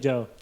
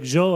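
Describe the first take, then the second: First: The name is said plainly, like the English name Joe. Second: The name is said with an elaborate, foreign-sounding pronunciation. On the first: The speaker calls it right. "No, it's just like Joe" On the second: The speaker calls it wrong. "I was trying to be fancy"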